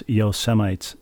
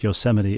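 First: Yosemites said as YO-se-mites, rhyming with lights; mispronounced Yosemite. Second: Said in the usual way. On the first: Shown as a demonstration. Host quoting a leader's slip, mispronounced Yosemites. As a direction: say Yosemites as spelt, ending in "mites". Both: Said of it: "pronounced Yosemite as Yosemites".

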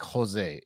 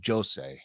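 First: "Jose" with the J as an H; breathed H opening "Jose"; Spanish H sound. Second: "Jose" with a voiced J; hard, voiced J opening "Jose"; solid Portuguese J. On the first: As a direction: say "Jose" Spanish-style, starting ho-. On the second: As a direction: say "Jose" Portuguese-style, starting jo-. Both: Shown as a demonstration. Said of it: "the J is what is solid".

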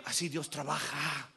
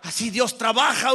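First: Said in the usual way. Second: Emphatic proclamation. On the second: Real, not acted. Preacher drives home how God works, loud and emphatic. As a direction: launch into full preaching voice.

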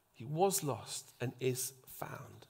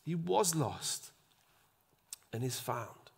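First: Slow, breathy whisper. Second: Slow, softer closing words; quiet father. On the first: Acted. Preacher whispering the verse back to the congregation. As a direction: whisper it for emphasis. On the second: Retold or imitated. Father softly ending his plea to his son. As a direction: let the words settle gently. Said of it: "the father says".

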